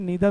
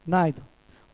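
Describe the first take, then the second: First: The first vowel sounds like 'ee'. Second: The first vowel sounds like 'eye'.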